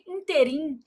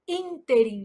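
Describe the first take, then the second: First: The stress is on the last syllable. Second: The stress is on the first syllable. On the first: The speaker calls it wrong. "O povo vai lá e fala assim" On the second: The speaker calls it right. "a gente fala nesse ínterim"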